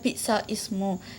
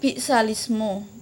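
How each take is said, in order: First: A glottal stop separates the two words. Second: The words run together with no glottal stop. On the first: The speaker calls it wrong. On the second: The speaker calls it right. "Cara membacanya ialah"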